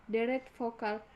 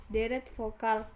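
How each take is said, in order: The two takes are said the same way.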